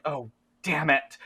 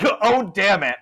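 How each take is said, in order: First: Said in the usual way. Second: Higher, louder character curse; Jed, exasperated. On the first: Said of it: "and Jed's like". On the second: Acted. Game master as Jed facing creatures, exasperated curse. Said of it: "Not in a Southern accent at all".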